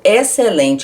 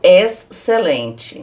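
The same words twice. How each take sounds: First: The X and C merge into one sound. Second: The X and C are sounded separately. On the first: The speaker calls it right. "eu junto esses dois sons aí. Eu falo excelente" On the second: The speaker calls it wrong. "eu não falo excelente"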